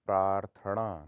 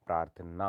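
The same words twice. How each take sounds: First: प्रार्थना said as praarthaṇa, loud; retroflex n. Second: Said in the usual way. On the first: Shown as a demonstration. Teacher shows the error, प्रार्थना with ण. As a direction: curl the tongue back for ना in प्रार्थना. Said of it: "नहीं होता". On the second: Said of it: "होता है".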